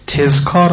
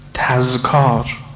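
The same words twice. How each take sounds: First: The first vowel is a front 'i'. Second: The first vowel is an open 'a'. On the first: The speaker calls it wrong. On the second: The speaker calls it right.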